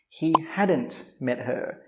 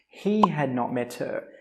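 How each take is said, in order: First: Had and not merge into one word. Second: Had and not are said as separate words. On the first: "we just say hadn't" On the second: "Normally we don't say not"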